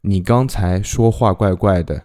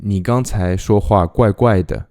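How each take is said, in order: Both takes have the same delivery.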